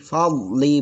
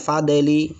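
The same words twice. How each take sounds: First: The d sound is plain, without an echoing bounce. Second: The d sound has an echoing bounce. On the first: The speaker calls it right. "fadli bukan fadli" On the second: The speaker calls it wrong. "Da do dikasih qalqalah, padahal do ini bukan qalqalah"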